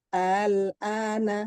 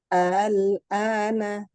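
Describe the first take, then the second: No difference in how they are said.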